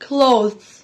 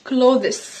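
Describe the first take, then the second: First: The word is said as a single syllable. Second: The word is said with more than one syllable. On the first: The speaker calls it right. "مقطع واحد على بعض" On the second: The speaker calls it wrong. "دي يا جماعه مش clothes"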